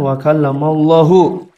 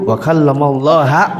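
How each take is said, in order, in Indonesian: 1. Kata Allah berakhir dengan vokal 'u'. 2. Kata Allah berakhir dengan vokal 'a'. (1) "Kalau Allah hu pakai dhammah berarti Allah fa'il" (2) "kalau ha nanti Allah jadi objek"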